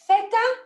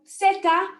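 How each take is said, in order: First: It is said in a mainland Spanish accent. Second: It is said in a Latin American accent. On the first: "if you're from mainland Spain" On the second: "if you're from Central and South America"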